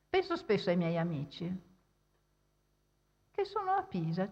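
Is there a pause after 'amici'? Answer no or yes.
yes. There is a pause after amici. All the friends are meant, and they happen to be in Pisa.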